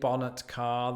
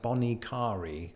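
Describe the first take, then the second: First: It sounds like the words bonnet car. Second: It runs together as one word, bonicari. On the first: The speaker calls it wrong. "The bonnet of a car in British English. That's that's not it" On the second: The speaker calls it right. "the locals go with something like Bonicari"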